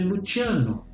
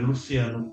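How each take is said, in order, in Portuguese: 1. O nome é dito com pronúncia italiana. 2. O nome é dito de um jeito não italiano. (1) "em italiano é Luciano" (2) "em meu nome"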